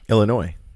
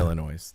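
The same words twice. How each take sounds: First: The final s is silent. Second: The final s is pronounced. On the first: The speaker calls it right. "No S" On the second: The speaker calls it wrong.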